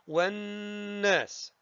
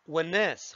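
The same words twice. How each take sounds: First: The doubled n is nasalized and held two beats. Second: The doubled n is snatched quickly without nasal hold. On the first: The speaker calls it right. "أغنها بمقدار كم حركة؟ حركتين" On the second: The speaker calls it wrong. "لا أقول والناس خطفا"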